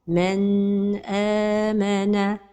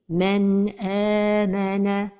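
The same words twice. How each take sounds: First: The n sound is held noticeably long. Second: The n flows smoothly into the next sound. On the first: The speaker calls it wrong. "c'est de prolonger son temps" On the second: The speaker calls it right. "la prononciation correcte est"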